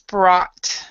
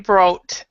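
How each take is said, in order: First: The vowel is an open 'ah' sound. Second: The vowel is not an open 'ah' sound. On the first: The speaker calls it right. "This is more like an ah sound" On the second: The speaker calls it wrong. "we wouldn't say brought"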